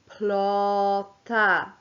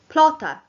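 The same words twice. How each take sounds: First: The word is said slowly. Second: The word is said quickly.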